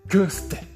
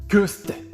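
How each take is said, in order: No difference in how they are said.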